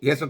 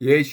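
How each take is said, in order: First: The middle consonant is an s sound. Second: The middle consonant is a sh sound. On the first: "സ" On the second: "സ യേശു അല്ല"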